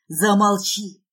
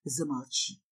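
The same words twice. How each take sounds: First: Loud, angry command; harsh, loud man's order; growled. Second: Very low, soft command; low, restrained man's plea; whispered. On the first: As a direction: snarl it out forcefully. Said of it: "рычит он". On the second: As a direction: hush her in a low murmur. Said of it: "шепчет он". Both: Acted.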